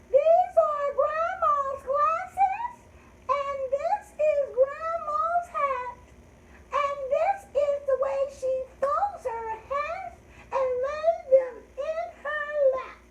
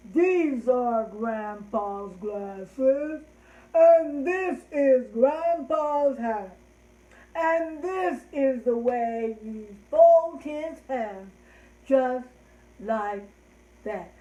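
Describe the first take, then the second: First: Very high, loud grandma squeak; sky-high sing-song rhyme voice; high-pitched voice. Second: Big, loud, drawn-out grandpa; loud, very slow deep-voiced rhyme. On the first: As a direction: recite slowly in a squeaky little falsetto. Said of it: "use your high-pitched voice". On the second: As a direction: boom it out slowly as Grandpa. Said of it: "let's do Grandpa in our deep voices". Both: Shown as a demonstration.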